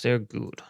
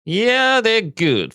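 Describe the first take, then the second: First: Said in the usual way. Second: High, loud burst of enthusiasm; sudden delighted outburst; excited exclamation. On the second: Real, not acted. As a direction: shout it out like a fan cheering. Bursts out praising the stock.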